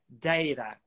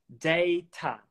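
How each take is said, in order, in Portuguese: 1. A consoante do meio é um tap rápido. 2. A consoante do meio é um som de t completo. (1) "Agora com o tap" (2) "vou começar com a transcrição que tá aí"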